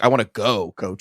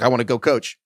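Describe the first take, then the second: First: There is a pause before coach. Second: There is no pause before coach.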